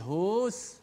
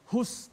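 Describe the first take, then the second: First: The vowel is drawn out long. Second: The vowel is short and runs on. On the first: The speaker calls it wrong. "tak boleh hus, ah, tak boleh panjangkan hu itu" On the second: The speaker calls it right. "Hus terus"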